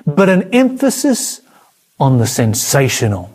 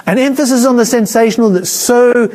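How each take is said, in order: First: Said in the usual way. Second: Preacher driving the point home on a second pass; emphasis repeated. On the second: Shown as a demonstration. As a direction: hammer the word on in the repeat.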